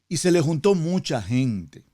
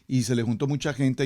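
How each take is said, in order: First: It is read slowly with deliberate pauses. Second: It is read quickly, running straight on. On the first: The listener takes in the meaning of the text. The speaker calls it right. "la estoy leyendo con mucha pausa, con mucho detenimiento" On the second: The meaning of the text gets passed over. The speaker calls it wrong. "como usualmente leemos la Biblia"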